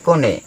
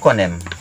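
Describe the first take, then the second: First: The word ends on a vowel. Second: The word ends with an m sound. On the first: This is how Bima people say it. "Kalau orang Bima bilang" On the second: This is how Manggarai people say it. "Orang Manggarai bilang"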